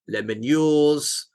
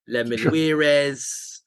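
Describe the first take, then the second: First: The name ends with a 'yours' sound. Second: The name ends with an extra 'weires' syllable. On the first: "it's definitely not that" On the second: "that could be quite nice, but it's a bit Spanish"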